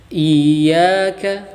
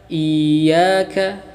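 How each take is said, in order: The two takes are said the same way.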